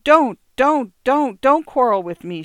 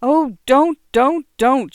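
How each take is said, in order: First: High, loud pleading wail; wife moaning to her husband not to quarrel; desperate moan. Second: High, loud tearful pleading; wife crying out to her husband; crying plea. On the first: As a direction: beg him to stop, near tears. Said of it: "she moaned". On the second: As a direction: cry out to make him stop. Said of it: "she cried". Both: A narrator's reading.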